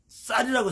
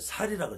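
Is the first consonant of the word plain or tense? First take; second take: tense; plain. First: The first consonant is a tense 's' sound. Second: The first consonant is a plain 's' sound. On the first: The speaker calls it right. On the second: The speaker calls it wrong.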